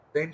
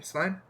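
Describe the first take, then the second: First: "Stein" said as "stain", questioning; unsure pronunciation. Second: "Stein" to rhyme with "fine", rising as a question; unsure pronunciation. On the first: Player guessing at Wallace's surname, "Stein" as "stain". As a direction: try "Stein" with an ay vowel, like "stain". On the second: Player guessing at Wallace's surname, "Stein" rhyming with "fine". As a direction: try "Stein" with a long eye vowel. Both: Real, not acted. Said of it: "I don't know".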